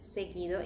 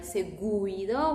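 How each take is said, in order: First: The U after the G is silent. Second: The U is pronounced after the G. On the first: The speaker calls it right. "We say just seguido. In this case, U becomes silent" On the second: The speaker calls it wrong. "we are not going to pronounce it like seguido"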